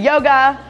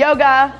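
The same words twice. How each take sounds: First: It is said while smiling. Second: It is said while smiling.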